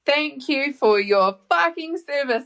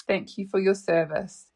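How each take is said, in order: First: Slow, higher-pitched mock disbelief; incredulous repeat. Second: Said in the usual way. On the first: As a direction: stretch it out, stressing FUCKING in sheer disbelief. Repeats his line back in disbelief. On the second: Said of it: "he says to me".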